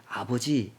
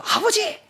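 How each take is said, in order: First: Said in the usual way. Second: "아버지!" shouted much higher and louder, upset; angry cry of father. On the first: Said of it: "아버지께 말씀을 드릴 때는". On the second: Shown as a demonstration. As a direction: call out 아버지 in anger but still respectful. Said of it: "화가 났더라도".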